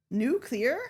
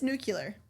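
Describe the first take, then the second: First: Nuclear as "new-clee-er" with a questioning rise; doubted pronunciation. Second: Nuclear said as "new-kyu-ler"; firm "new-kyu-ler" for "nuclear"; insisted mispronunciation. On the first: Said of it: "It's not nuclear". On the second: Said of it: "No, it's nuclear". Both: Shown as a demonstration.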